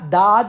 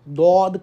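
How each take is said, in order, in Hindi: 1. स्वर एक सादा खुला 'aa' जैसा है। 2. स्वर एक गोल होने वाला 'aw' जैसा है। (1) "दाद ना कहें" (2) "दौद कहें"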